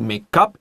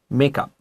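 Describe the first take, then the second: First: The stress falls on the second part, up. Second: The stress falls on the first part, make. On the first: It is the verb meaning to form or compose. "to make up is the verb" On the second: It is the noun meaning cosmetics. "那个加强第一个音节"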